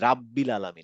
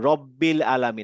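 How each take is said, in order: First: The first syllable has an open 'ra' vowel. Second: The first syllable has a rounded 'ro' vowel. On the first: The speaker calls it wrong. "আমরা বলবো না যে রাব্বিল আলামিন" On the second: The speaker calls it right. "যেমন রব্বিল আলামিন"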